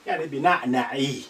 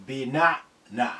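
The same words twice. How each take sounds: First: بنعنعي with the final i vowel sounded; full ending. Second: بنعنع ending on a silent final consonant, no vowel; paused ending. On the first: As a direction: finish بنعنعي with a clear final i. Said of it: "when you want to complete the whole thing". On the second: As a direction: cut بنعنع short with a sukun on the last letter. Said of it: "you just stop by imaginary سكون". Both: Shown as a demonstration.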